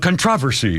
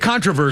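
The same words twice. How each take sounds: First: It is said the British way. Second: It is said the American way. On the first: "he says uh, uh, controversy" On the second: "I say controversy"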